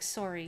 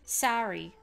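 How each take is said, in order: First: Sorry is said with the speaker's local vowel. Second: Sorry is said with an American vowel, like sari. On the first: "we say more like sorry here" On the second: "you got to speak like an American. You have to say sorry"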